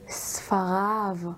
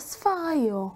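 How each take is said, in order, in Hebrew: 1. המילה מסתיימת בצליל 'av'. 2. המילה מסתיימת בצליל שאינו 'av'.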